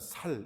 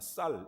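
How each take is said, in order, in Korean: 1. 첫 자음은 예사소리 ㅅ입니다. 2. 첫 자음은 된소리 ㅆ입니다.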